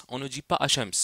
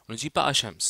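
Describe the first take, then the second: Both takes have the same delivery.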